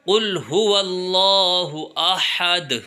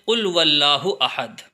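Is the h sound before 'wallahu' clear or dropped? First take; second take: clear; dropped. First: The h sound before wallahu is clearly said. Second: The h sound before wallahu is left out. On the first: The speaker calls it right. "हा की अदायगी साफ साफ होनी बहुत ज़रूरी है" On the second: The speaker calls it wrong. "हा हज़फ हो जाता है, वो अदा नहीं होता और हम यूँ पढ़ देते हैं"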